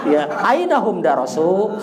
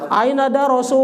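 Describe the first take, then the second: First: Darosu with the final u held two beats only; just two beats on the u; right length. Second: Darosu dragged out far too long, higher; over-long vowel. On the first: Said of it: "segitu aja". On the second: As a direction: stretch the final u way too long as a mock mistake. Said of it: "jangan kepanjangan juga". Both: Shown as a demonstration.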